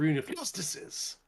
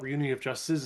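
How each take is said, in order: First: The name is said in a loud, excited voice. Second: The name is said in a flat, plain voice. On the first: The speaker calls it right. "It's got an exclamation point" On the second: The speaker calls it wrong. "you mispronounced the name. It's not"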